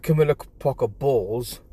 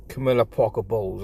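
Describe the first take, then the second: First: Bowles twisted into "balls"; mocking name, leaning on "Bowles" as "balls"; punning mispronunciation. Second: Said in the usual way. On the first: Real, not acted. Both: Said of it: "more like Camilla Parker Bowles".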